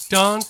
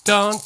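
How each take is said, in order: No difference in how they are said.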